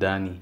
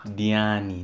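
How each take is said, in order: First: The name is said with two syllables. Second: The name is said with three syllables. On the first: The speaker calls it wrong. "not Dani" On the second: The speaker calls it right. "Diani, not Dani"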